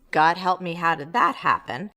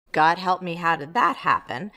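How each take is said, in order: Both takes have the same delivery.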